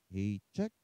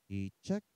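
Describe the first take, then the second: Both takes have the same delivery.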